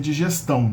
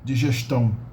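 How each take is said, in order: First: The s is a plain hissing s. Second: The s sounds like sh, Rio style.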